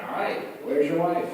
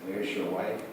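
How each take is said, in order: First: Wife stressed; punchline. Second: Wife rises; repeat punchline. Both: Shown as a demonstration. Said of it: "That was the second one".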